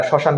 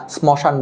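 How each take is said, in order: First: Said in the usual way. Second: শ্মশান with the silent m wrongly sounded, as "smoshan"; sounded-m mispronunciation. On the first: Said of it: "যেমন আমরা শ্মশান বানানটা". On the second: Shown as a demonstration. Teacher shows students what isn't said, শ্মশান with m sounded. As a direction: pronounce the m after the first s in শ্মশান. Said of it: "শ্মশান বলি না".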